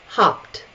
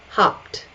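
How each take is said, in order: The two takes are said the same way.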